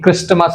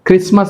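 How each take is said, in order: First: The t sound is clearly pronounced. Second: The t sound is left out. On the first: The speaker calls it wrong. "క్రిస్టమస్ అనం" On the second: The speaker calls it right. "క్రిస్మస్ అంటాం"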